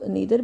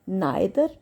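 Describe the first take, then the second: First: The first vowel sounds like 'ee'. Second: The first vowel sounds like 'eye'.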